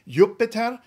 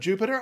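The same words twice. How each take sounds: First: It is pronounced the classical Latin way. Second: It is pronounced the usual English way. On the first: "if you want to stick with the classical roots" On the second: "instead of"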